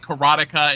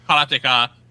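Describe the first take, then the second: First: It has a stronger, English-style R sound. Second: It has a light, Japanese-style R sound. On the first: "giving a little bit more R" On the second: "in Japanese it would be like"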